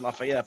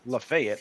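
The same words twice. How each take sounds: First: The name is said the New York way. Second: The name is said the Tennessee way. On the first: "in New York ... they pronounce it" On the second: "in like Tennessee ... but it's"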